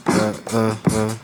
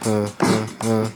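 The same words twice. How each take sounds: The two takes are said the same way.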